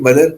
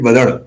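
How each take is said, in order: First: The name ends in a plain tapped r. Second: The name ends in a retroflex flap. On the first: This is the standard form of the name. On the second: It is said as a joke, in a popular local accent.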